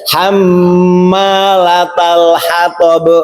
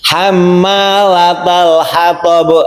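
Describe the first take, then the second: First: The m sound is held for two beats. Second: The m sound is short, not held. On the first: The speaker calls it right. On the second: The speaker calls it wrong. "kesalahannya itu tadi mimnya tidak ditahan"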